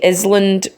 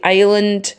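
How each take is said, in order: First: The s sound is pronounced in the middle. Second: The s sound is silent in the middle. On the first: The speaker calls it wrong. "we don't say island" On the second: The speaker calls it right. "that S is silent"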